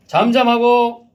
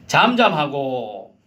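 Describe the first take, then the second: First: Slow, loud, high rebuke; stern command. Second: Said in the usual way. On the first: Acted. Jesus rebuking the demon, slow stern command. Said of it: "그리고 말씀하십니다". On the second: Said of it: "다시 이십오 절 보세요".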